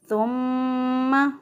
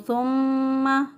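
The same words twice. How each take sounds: First: The doubled m is said with nasal hold. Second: The doubled m is said without nasal hold. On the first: The speaker calls it right. "दुरुस्त अदायगी है" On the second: The speaker calls it wrong. "गुन्ना नहीं करते तो गलती हो जाए"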